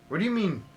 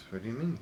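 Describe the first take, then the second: First: Higher, insistent "What do you mean"; urgent questioning. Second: Said in the usual way. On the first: Acted. Listener grabbing at the witness for more, urgent questioning. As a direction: press hard for the answer.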